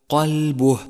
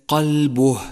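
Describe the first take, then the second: Both takes have the same delivery.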